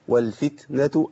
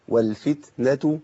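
No difference in how they are said.

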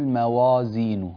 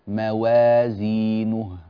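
First: The waw and alif sound heavy and thick. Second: The waw and alif sound light and thin. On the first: The speaker calls it wrong. "لا تقول موازينه، موا، أنا أبالغ لك" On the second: The speaker calls it right. "رقق الواو والألف جيدا"

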